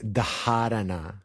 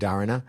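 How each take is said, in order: First: The first consonant has an audible breathy puff. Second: The first consonant has no breathy puff. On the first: The speaker calls it right. "More technically, you say it's dharana" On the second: The speaker calls it wrong. "Sometimes you hear people say dharana"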